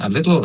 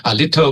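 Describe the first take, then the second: First: "a little" American-style, ending in a dark "-tl"; American accent. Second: "a little" with a crisp aspirated T, ending "-tho"; clear T. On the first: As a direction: run "a little" together like an American. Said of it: "ออกเสียงแบบอเมริกันก็". (ออกเสียง "a little" สำเนียงอเมริกัน) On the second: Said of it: "ก็จะเป็น". (ออกเสียง "a little" ชัดตัว T เป็น "อะ ลิทโท") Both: Shown as a demonstration.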